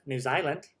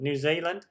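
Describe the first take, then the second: First: New Zealand accent. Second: Said in the usual way. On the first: Shown as a demonstration. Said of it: "there's my New Zealand accent".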